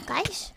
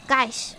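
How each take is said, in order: First: GUYS said softly with a rising tune; questioning tune. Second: GUYS said low with a falling tune. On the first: Streamer testing the word, soft rising tune on GUYS. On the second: Streamer testing the word, falling tune on GUYS. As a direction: drop GUYS down low like a statement. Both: Shown as a demonstration.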